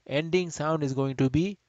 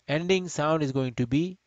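No difference in how they are said.

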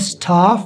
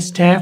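First: It is said with a British open 'aa' vowel. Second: It is said with an American flat 'a' vowel.

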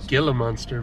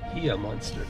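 First: The first word begins with a hard G sound. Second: The first word begins with an H sound. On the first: The speaker calls it wrong. "we said gila monster" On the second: The speaker calls it right. "you don't pronounce the G or the L"

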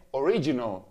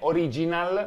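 First: It is pronounced with English sounds and rhythm. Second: It is pronounced with Italian sounds and rhythm. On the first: The speaker calls it right. "ma è original" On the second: The speaker calls it wrong. "Che non è original"

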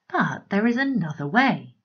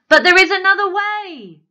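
First: It is spoken in a calm, normal voice. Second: It is shouted in a loud, booming voice. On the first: The character is simply explaining. "she explained" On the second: The character is forceful or angry. "she bellowed"

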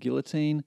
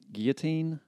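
First: The word is said with an English-style pronunciation. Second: The word is said with a French-style pronunciation. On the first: "I don't think I can carry off a French accent" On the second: "you may pronounce it guillotine"

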